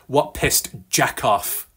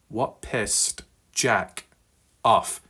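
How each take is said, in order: First: It is said fast, the words run together. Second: It is said slowly, the words kept apart.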